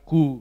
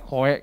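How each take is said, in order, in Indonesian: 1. Nama itu diakhiri dengan satu vokal 'oo'. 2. Nama itu diakhiri dengan bunyi vokal 'oh-eh'. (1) "tapi sebenarnya dibacanya Ku" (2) "banyak membacanya Koe"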